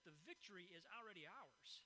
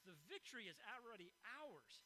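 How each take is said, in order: First: The phrase is said at a softer volume. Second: The phrase is said at a louder volume.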